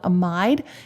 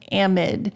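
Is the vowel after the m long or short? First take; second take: long; short. First: The vowel after the m is long. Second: The vowel after the m is short.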